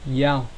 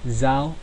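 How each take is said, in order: First: The word begins with a y sound. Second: The word begins with a z sound. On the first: "The central and southern way of pronunciation" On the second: "the northern way pronunciation"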